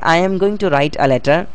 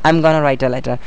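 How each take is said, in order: First: Going to is said as two full words. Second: Going to is reduced to a single word, gonna. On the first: "गोइंग टू" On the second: "गोना"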